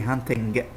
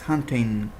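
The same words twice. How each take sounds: First: The final G is pronounced as a hard sound. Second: The word ends without a hard G sound. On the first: The speaker calls it wrong. "don't pronounce the G. So don't say hunting" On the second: The speaker calls it right. "It's hunting"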